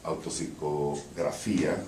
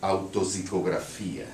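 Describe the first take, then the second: First: Title read in Portuñol-accented Spanish; Spanish pronunciation. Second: Title read with a Brazilian Portuguese accent. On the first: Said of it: "Em Spanish". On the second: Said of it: "read the poem with a Brazilian accent". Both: Shown as a demonstration.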